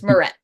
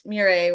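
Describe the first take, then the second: First: The name ends with an 'et' sound. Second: The name ends with an 'ay' sound. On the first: This is how the family says the name. "we just don't pronounce it that way. It's Moret" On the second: This is how most people say the name. "Everyone says Murray, which is how it's supposed to be pronounced"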